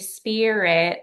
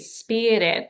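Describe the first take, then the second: First: The R is a plain, unrolled sound. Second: The R is rolled or tapped. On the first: The speaker calls it wrong. "I don't want you to say spirit" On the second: The speaker calls it right. "like roll the R"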